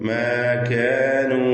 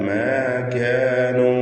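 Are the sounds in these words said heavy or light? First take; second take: light; light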